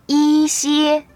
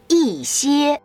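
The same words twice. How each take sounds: First: The first syllable has a flat tone. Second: The first syllable has a falling tone. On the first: The speaker calls it wrong. "you can never read it 一歇 which is incorrect" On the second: The speaker calls it right. "you should read it as a falling tone"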